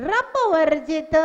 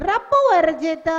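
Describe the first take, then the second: The two takes are said the same way.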